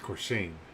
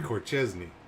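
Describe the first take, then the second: First: The name is said as Corshane. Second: The name is said as Corchesney. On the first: The speaker calls it right. "It's Corshane" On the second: The speaker calls it wrong. "I always want to say Corchesney"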